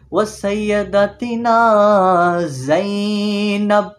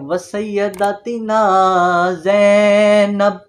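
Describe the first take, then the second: First: The z in Zainab is said forcefully. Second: The z in Zainab is said softly. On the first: The speaker calls it right. "ज़ोर दे के" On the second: The speaker calls it wrong. "जो लोग गलती करते हैं वो करते हैं"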